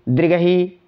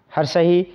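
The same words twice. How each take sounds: First: दीर्घही with a long, drawn-out final ई; long vowel. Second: हर्षही with a short, quick ई at the end; short vowel. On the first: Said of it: "दीर्घही में थोड़ा ऊंचा लगाएंगे". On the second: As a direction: clip the final ई of हर्षही short. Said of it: "हर्षही में थोड़ा कम मात्रा में". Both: Shown as a demonstration.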